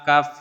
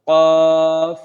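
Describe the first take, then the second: First: The name starts with a light k sound. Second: The name starts with a heavy, deep k sound. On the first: The speaker calls it wrong. "কাফ বলা যাবে না" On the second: The speaker calls it right. "কফ মোটা হবে"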